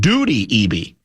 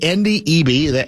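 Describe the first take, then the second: First: The first name starts without an N sound. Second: The first name starts with an N sound. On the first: The speaker calls it wrong. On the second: The speaker calls it right.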